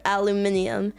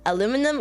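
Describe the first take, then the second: First: "aluminium" the British way, stress on MIN; British pronunciation. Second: "aluminum" the American way, stress on LU; American pronunciation. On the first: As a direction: say "aluminium" in five syllables, al-u-MIN-ium. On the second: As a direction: say "aluminum" in four syllables, a-LU-mi-num. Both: Shown as a demonstration. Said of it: "Do you say".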